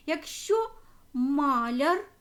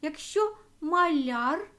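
First: Маляр said as MAlyar, stress on the first syllable; маляр stressed at the start. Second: Маляр said as malYAR, stress on the final syllable, slow; slow, land the stress at the end: маляр; stress on last syllable. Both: Shown as a demonstration. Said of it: "Залежно від наголосу".

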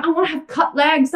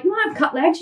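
First: A hint of a dreamy client asking; lightly voiced wish for cut legs; mock wishful client. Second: Fast, disbelieving repeat of "wanna"; incredulous echo. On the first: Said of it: "I hear this all the time". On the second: Real, not acted. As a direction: throw it back in disbelief. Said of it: "I'm like".

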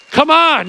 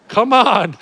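First: Louder, higher, full-force call; urging harder. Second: Loud call to the crowd; rally the room; urging. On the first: Preacher pressing his congregation, louder and higher. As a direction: push the crowd up a notch. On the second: Preacher urging his congregation, loud call. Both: Real, not acted.

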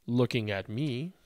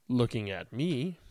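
The two takes are said the same way.

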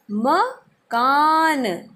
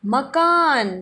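First: मकान stretched very slowly, each sound held; slow drawn-out word. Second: Said in the usual way. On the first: Shown as a demonstration. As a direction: draw out मकान slowly for the class. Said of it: "क्या कहते हैं?". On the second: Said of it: "और घर को हम क्या कहते हैं?".

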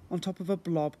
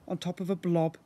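The two takes are said the same way.

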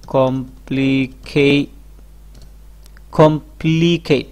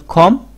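First: "complicate" drawn out slowly as kom-pli-kei; slow syllable-by-syllable. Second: "complicate" as kom, pli, kei with long pauses; split in three. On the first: Teacher showing viewers a long word, slow and syllabic. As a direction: stretch each syllable of "complicate". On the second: Teacher dividing the word for viewers, split in three. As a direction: break "complicate" into three separate beats. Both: Shown as a demonstration. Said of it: "তিনটি ভাগে ভাগ করে".

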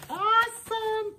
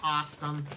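First: Squeaky high repeat of Awesome; cartoonish high-pitched delight; chipmunk voice. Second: Said in the usual way. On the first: Shown as a demonstration. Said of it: "and your chipmunk voice".

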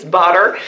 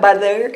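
First: BUTTER with a crisp tapped middle, no th; BUTTER corrected with a clean d-like tap. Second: BUTTER with its middle consonant softened to th; mispronounced butter. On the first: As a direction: say BUTTER as "budder", tongue tapping behind the teeth. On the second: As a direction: say BUTTER as "buther", tongue between the teeth. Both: Shown as a demonstration. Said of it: "It's not butter, it's butter".

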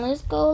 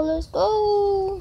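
First: Said in the usual way. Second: Higher, more eager let's go; eager repeat. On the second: Real, not acted. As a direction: lift the second go up, itching to start. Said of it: "Come on, let's go".

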